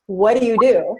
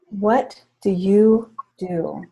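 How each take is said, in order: First: Brisk, pushing for an answer; pressing question. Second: Slow gentle question. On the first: Coach on stage pressing Stephanie, pushing for an answer. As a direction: fire the question at her again. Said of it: "Okay, try that again". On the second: Coach asking again after the breathing, slow and gentle. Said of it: "all right, hold on". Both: Retold or imitated.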